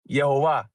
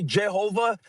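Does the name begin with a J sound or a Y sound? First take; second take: Y sound; J sound. First: The name begins with a Y sound. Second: The name begins with a J sound. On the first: The speaker calls it right. "the way it's supposed to be pronounced" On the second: The speaker calls it wrong. "that's a complete twisting of the phonetics"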